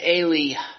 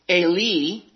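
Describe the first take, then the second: First: The word ends with an added breath sound. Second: The word ends cleanly with no breath.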